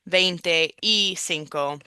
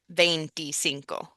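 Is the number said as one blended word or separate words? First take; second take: separate; blended. First: The number is said as three separate words. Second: The number is said as one blended word. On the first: The speaker calls it wrong. "So instead of saying veinte y cinco" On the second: The speaker calls it right. "It's all one word"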